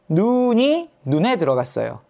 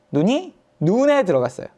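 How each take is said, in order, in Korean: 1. 첫 번째 눈은 길고, 두 번째 눈은 짧아요. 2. 첫 번째 눈은 짧고, 두 번째 눈은 길어요.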